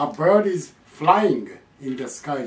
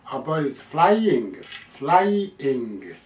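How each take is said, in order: First: "flying" as one quick merged word; run-together "flying". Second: Slow "flying" as "fly", then "ing"; clearly separated "flying". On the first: Teacher showing what not to say, "flying" run together. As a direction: blur "fly" straight into "ing" in flying. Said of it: "じゃないです". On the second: Teacher correcting the example, "flying" in two clear slow parts. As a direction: stretch "fly" fully before the "ing" of flying. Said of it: "こっちははっきりそのまま発音しなきゃ". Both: Shown as a demonstration.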